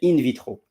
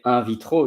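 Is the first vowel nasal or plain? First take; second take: plain; nasal. First: The first syllable is a plain 'in' sound. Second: The first syllable has a nasal French-style vowel. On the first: The speaker calls it right. "you say in vitro" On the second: The speaker calls it wrong. "you don't say in vitro"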